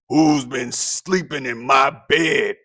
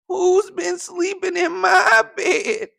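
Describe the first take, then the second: First: It is said in a deep gruff voice. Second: It is said in a tiny squeaky voice.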